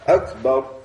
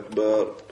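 First: The last vowel is kept short. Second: The last vowel is drawn out long. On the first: It means greatest. The speaker calls it right. "Без того, чтобы тянуть акбар" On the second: It means a drum. The speaker calls it wrong. "А не тянется Акбар"

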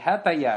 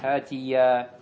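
First: The vowel after the 't' is 'a'. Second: The vowel after the 't' is 'i'. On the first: The speaker calls it wrong. "не «Хатая»" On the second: The speaker calls it right. "а как говоришь «Хатия»"

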